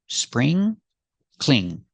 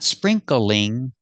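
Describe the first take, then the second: First: The word is said with two syllables. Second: The word is said with three syllables. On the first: The speaker calls it right. "two syllables" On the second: The speaker calls it wrong. "not three syllables"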